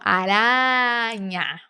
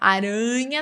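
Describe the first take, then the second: First: The A vowel is said wide open. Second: The A vowel is said less open. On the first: The speaker calls it right. "lembra de abrir bem, principalmente esse A aqui" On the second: The speaker calls it wrong. "aranha não"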